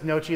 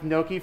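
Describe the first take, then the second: First: The middle consonant is a ch sound. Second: The middle consonant is a hard K sound. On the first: "everybody says Nochi though" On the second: "with the hard K sound"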